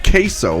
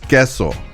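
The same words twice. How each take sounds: First: It is said with an anglicized English pronunciation. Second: It is said with a Spanish pronunciation. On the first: The pronunciation was changed to suit English speakers. The speaker calls it wrong. "So why change it to accommodate queso?" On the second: This is the word's original pronunciation. The speaker calls it right. "there is already a pronunciation of the word. The word is queso"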